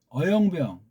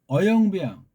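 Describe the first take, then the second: No difference in how they are said.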